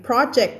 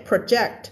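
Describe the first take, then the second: First: PROject, first syllable stressed; stress shift, noun. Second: ProJECT, second syllable stressed; stress shift, verb. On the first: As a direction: put the stress on PRO in project. (เน้นพยางค์แรกของ project) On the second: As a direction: put the stress on JECT in project. (เน้นพยางค์หลังของ project) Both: Shown as a demonstration. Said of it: "stress ที่คนละเสียง".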